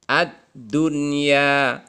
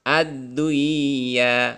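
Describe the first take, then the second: First: The n sound is pronounced clearly before y. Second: The n sound merges into the following y. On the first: The speaker calls it right. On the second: The speaker calls it wrong.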